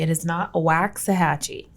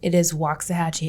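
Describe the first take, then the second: First: The name is pronounced an outsider way. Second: The name is pronounced the local way. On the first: The speaker is not from the area. The speaker calls it wrong. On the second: The speaker is from the area. The speaker calls it right. "we're saying it right. It is Waxahachie"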